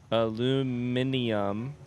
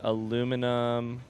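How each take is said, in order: First: It is said the British way, five syllables. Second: It is said the American way, four syllables.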